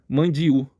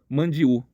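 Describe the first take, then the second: Both takes have the same delivery.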